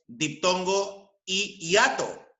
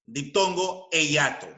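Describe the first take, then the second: First: "y" held as "ee" before "hiato"; "y" form. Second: "e" said as "eh" before "hiato"; "e" form. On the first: Teacher showing one valid form, "y" stressed before "hiato". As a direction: set "y" apart from "hiato". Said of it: "Ambas son válidas". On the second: Teacher showing the other valid formula, "e" before "hiato". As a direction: stress the "e" in "e hiato". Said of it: "la siguiente fórmula". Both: Shown as a demonstration.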